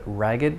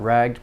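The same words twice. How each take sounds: First: The -ed ending is a separate syllable. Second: The -ed ending is not a separate syllable. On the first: The speaker calls it right. "I'm pronouncing the ed in this case" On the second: The speaker calls it wrong. "not ragged"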